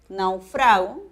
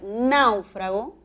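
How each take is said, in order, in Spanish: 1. La sílaba tónica es la segunda. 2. La sílaba tónica es la primera. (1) "que es un verbo, es una palabra grave" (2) "náufrago con tilde, esdrújula"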